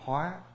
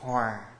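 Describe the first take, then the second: First: The word has a high rising tone. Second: The word has a low falling tone. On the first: It means to transform. "nó có dấu sắc là hóa" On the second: It means to be in harmony. "là dấu huyền"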